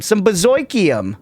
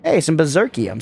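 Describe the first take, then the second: First: Berserkium said as "ber-ZOY-kium", drawn out; comic "oy" vowel in Berserkium; playful mispronunciation. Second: Said in the usual way. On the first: Pretend. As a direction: stretch Berserkium slowly with an "oy" in the middle. Repeats item name in funny pronunciation.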